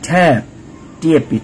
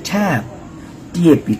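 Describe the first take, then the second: The two takes are said the same way.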